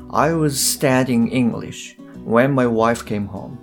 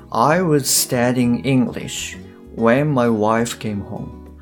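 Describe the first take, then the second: The two takes are said the same way.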